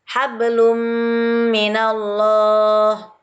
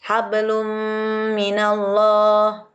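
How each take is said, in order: Both takes have the same delivery.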